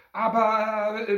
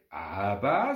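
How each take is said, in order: First: High, loud, drawn-out but; protesting boy cut short; begun protest. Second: Drawn-out, rising but; mother's objection. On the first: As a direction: start to object, pitched up. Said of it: "begann Nick". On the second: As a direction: lower but, rising at the end. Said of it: "sagte auch Mama". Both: A narrator's reading.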